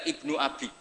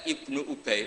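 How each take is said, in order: First: The name is read with vowels a-bi. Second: The name is read with vowels u-bay. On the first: The speaker calls it wrong. "Itu dibaca Ibnu Abi" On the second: The speaker calls it right. "kadang-kadang ada orang itu baca Ibnu Ubay"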